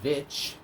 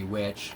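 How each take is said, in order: First: The word begins with a v sound. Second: The word begins with a w sound. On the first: The speaker calls it wrong. "also from the producers of the Vitch" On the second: The speaker calls it right. "but it should be Witch"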